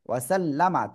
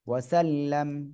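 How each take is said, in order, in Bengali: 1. শব্দটি m-এর পরে একটি ছোট স্বরধ্বনি দিয়ে শেষ হয়। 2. শব্দটি একটি নীরব বদ্ধ m দিয়ে শেষ হয়।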